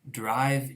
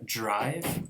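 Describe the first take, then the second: First: The word begins with a plain d sound. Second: The word begins with a j-like sound.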